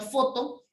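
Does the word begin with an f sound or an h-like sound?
f sound. The word begins with an f sound. "en vez de decir, por ejemplo, foto"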